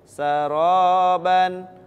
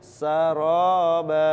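First: The word ends with a final 'n' sound. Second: The word ends on a long open vowel. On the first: The reading continues without stopping. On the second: The reader stops on this word.

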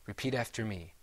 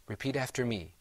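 No difference in how they are said.

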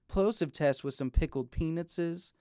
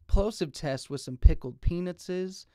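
First: The pops carry a medium low bass thump. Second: The pops carry a strong low bass thump. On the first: Sound below 120 Hz is cut. "Now this is with the 120 Hz high pass filter enabled" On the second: No low-cut filter is applied. "Now this is in flat mode"

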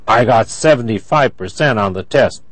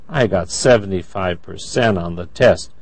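First: The voice sounds angry. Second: The voice sounds disappointed. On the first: The speaker is upset about the score. "That's angry" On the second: The speaker hoped for a better score.

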